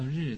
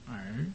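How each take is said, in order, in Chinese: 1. 这个字是用标准的'ri'音说的。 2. 这个字读得像'er'，没有'r'声母。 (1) "就叫日" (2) "他叫耳"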